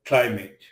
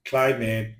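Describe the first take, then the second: No difference in how they are said.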